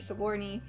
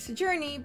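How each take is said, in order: First: The middle consonant sounds like 'g'. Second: The middle consonant sounds like 'j'. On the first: The speaker calls it right. "her name is pronounced Sigourney Weaver" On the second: The speaker calls it wrong. "I've been pronouncing it wrong as Sojourney"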